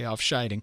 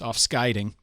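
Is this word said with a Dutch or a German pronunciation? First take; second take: German; Dutch. First: The word is said with a German pronunciation. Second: The word is said with a Dutch pronunciation. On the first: The speaker calls it wrong. "every fiber of my being wants to say Afscheiding" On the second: The speaker calls it right. "I know it's Afscheiding"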